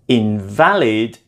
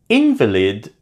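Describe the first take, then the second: First: The stress is on the second syllable. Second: The stress is on the first syllable. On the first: It is an adjective meaning not legal. "is an adjective suggesting that something is not legal"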